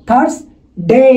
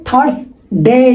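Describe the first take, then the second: No difference in how they are said.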